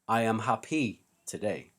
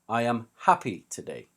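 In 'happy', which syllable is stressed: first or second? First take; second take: second; first. First: Happy is stressed on its second syllable. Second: Happy is stressed on its first syllable. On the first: The speaker calls it wrong. "this probably sounds wrong to you because it is wrong. We do not put the stress at the end of the word" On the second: The speaker calls it right. "We put the stress on the first syllable"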